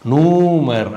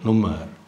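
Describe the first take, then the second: First: The first vowel is drawn out long. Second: The first vowel is cut short. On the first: The speaker calls it wrong. "அப்படி கிடையாது" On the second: The speaker calls it right. "Vowel குரில் மாதிரி ஒலிக்கும்"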